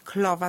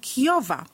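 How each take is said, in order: First: An l sound follows the k. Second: A y-like glide follows the k. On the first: The child swaps the r for a common, harmless substitute. "jeżeli jest to ly, najczęstsza taka substytucja" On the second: The child struggles to raise the tongue. "głoska ry jest zamieniana na i"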